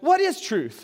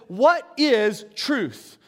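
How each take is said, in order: First: The question is asked in a snarky, mocking tone. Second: The question is asked in a plain reading tone.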